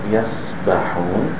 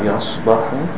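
First: The s sound is thin and light. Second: The s sound is thick and heavy. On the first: The speaker calls it right. "the seam is pronounced thin" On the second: The speaker calls it wrong. "Not yasbahun"

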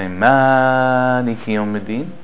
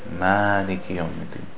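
First: The long vowel is stretched much too long. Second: The long vowel is held for two beats. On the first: The speaker calls it wrong. "this is breaking the rules of Tajweed" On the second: The speaker calls it right. "There's no reason to make it longer than that"

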